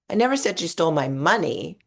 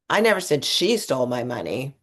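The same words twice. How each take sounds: First: The stress falls on the word 'money'. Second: The stress falls on the word 'she'. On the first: Something else was taken. "It was my credit cards that are missing" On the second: Someone else took it. "I actually thought this other person did it"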